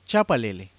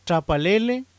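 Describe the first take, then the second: First: Chapalele said loud with a clear ch, falling at the end; standard form. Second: Chapalele said loud and high with a t at the start; regional form. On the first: Teacher gives the standard chapalele for contrast. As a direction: give chapalele its full ch sound. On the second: Teacher shows the local pronunciation of Chapalele. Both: Shown as a demonstration. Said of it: "por chapalele".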